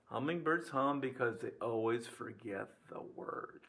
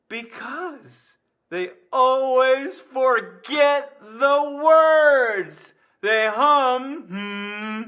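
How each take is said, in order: First: Low, soft repeat of the punchline; quiet recap. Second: High, loud, very drawn-out delivery; gleeful punchline. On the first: Real, not acted. Teacher giving students a joke to keep, quietly. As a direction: restate the joke softly and evenly. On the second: Pretend. Teacher revealing the hummingbird joke's answer, loud and gleeful. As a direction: belt out the punchline, stretching every word.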